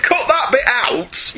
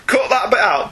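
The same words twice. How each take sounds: First: Drawn out slowly and higher; slow emphatic. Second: Said in the usual way. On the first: Real, not acted. Host tells co-host to cut the bit, slow and pointed. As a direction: spell out the instruction slowly. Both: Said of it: "You have my permission".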